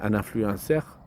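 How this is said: It is said with a French accent. "avec l'accent français?"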